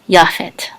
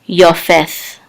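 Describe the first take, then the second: First: The first vowel is 'ah', ending in 't'. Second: The first vowel is 'oh', ending in 'th'. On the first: This is the present-day way of saying the name. "But in modern times, we would pronounce this as Yafet" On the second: This is the older way of saying the name. "more ancient pronounce, pronunciation of this name would be, and this kamatz would be oh"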